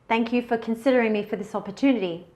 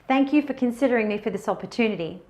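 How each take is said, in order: No difference in how they are said.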